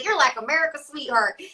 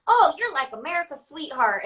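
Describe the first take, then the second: First: Said in the usual way. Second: Mock country accent. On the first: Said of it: "country people be like". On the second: Airport fan gushing at her, in a Midwest country accent. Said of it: "I don't know why I'm saying it with that accent".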